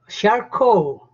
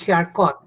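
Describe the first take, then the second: First: The name is pronounced the French way. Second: The name is pronounced a non-French way. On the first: The speaker calls it right. "the proper pronunciation ... It is French" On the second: The speaker calls it wrong. "It's not Charcot"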